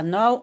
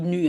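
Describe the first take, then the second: First: "nou" with an ow sound, like now; "nou" said the Dutch way, rhyming with now; not said in Belgium. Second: "nu" with a clean rounded u, no ow glide; Belgian pronunciation. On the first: Teacher shows the form Belgians avoid: "nou" like now. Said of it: "on dit pas nou". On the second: Teacher gives the Belgian way: "nu" with a pure u. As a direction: say "nu" short, like French tu. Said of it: "on dit nu". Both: Shown as a demonstration.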